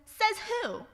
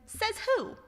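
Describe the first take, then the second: First: Mock retort. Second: Put-on rude kid. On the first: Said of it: "throw your phrase right back at you". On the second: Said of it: "And you said".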